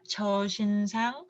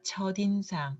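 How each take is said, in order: First: The final consonant links over without changing. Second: The final consonant changes before linking over. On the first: The speaker calls it wrong. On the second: The speaker calls it right. "but it should be changed"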